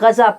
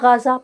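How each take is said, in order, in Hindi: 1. यह नाम स्थानीय उर्दू ढंग से बोला जाता है। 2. यह नाम अंग्रेज़ी जैसे ढंग से बोला जाता है। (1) "भाई गजा पट्टी" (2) "गोरों से हो रहे हैं ... हर कोई गाजा गाजा"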